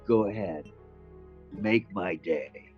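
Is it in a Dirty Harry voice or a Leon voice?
Dirty Harry. It is said in a Dirty Harry voice.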